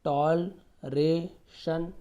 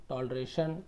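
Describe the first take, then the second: First: toleration drawn out slowly, each syllable apart. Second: Said in the usual way. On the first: Shown as a demonstration. Teacher breaking toleration into slow syllables. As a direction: spell out toleration slowly for the class. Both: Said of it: "तोड़ तोड़ के पढ़िए आप".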